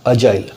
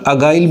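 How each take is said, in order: First: The middle consonant is a j sound. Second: The middle consonant is a hard g sound. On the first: The speaker calls it right. "जी है, तो जाइल है" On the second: The speaker calls it wrong. "बहुत जन देखिए pronunciation में अगाइल बोल देते हैं"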